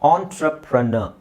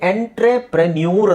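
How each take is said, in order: First: It starts with 'aan' and ends in 'ner'. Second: It is read as spelled, ending in 'nyoor'. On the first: The speaker calls it right. "ಆಂಟ್ರಪ್ರ ಪ್ರೇ ಅಲ್ಲ" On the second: The speaker calls it wrong. "ನೋಡ್ಲಿಕ್ಕೆ ನಿಮಗೆ ಎಂಟ್ರೆಪ್ರೆನ್ಯೂರ್ ಅಂತ ಕಾಣುತ್ತೆ"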